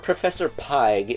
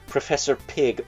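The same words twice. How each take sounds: First: The name is pronounced as text-to-speech reads it. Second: The name is pronounced in the usual way.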